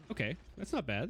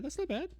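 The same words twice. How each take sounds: First: Said in the usual way. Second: High, squeaky repeat of not bad; playful falsetto echo; squeaky mock echo. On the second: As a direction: echo yourself in a silly high voice.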